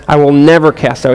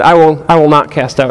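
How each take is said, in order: First: "never" pressed firm with a falling tune; "I will never" with "never" emphasized; stress on never. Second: Said in the usual way. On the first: Shown as a demonstration. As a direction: lean on "never" as an absolute promise. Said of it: "it's emphatic here". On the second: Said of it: "He could have said".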